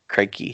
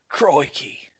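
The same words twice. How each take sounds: First: It is said without an Australian accent. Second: It is said in a strong Australian accent. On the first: This is not how the imitated person said it. The speaker calls it wrong. "Steve Irwin wouldn't say crikey" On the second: This is how the imitated person said it. The speaker calls it right. "he'd say crikey"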